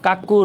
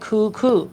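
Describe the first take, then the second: First: The first syllable has an 'a' vowel. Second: The first syllable has an 'oo' vowel. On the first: The speaker calls it wrong. "অনেকে এটাকে উচ্চারণ করে কাকু, কাকু রং" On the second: The speaker calls it right. "এটা হচ্ছে correct উচ্চারণ"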